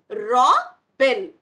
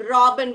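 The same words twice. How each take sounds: First: "Robin" split loudly as Ro - bin; broken into syllables. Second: Said in the usual way. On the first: Shown as a demonstration. Teacher showing children the break, split syllables. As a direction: pause between the halves of "Robin". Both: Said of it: "We are breaking here".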